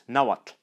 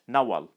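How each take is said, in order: First: The name ends in a lateral tl sound. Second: The name ends in a plain l sound. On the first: This is the Central and Northern form. "it retains its classical sound" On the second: This is the Western form. "it has come to be pronounced L"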